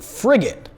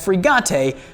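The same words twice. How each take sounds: First: It is said with a plain English pronunciation. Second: It is said with a fake French pronunciation. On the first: "this ugly piece of crap doesn't get the nonsensical offensive fake French pronunciation" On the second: "Usually I pronounce that frigate"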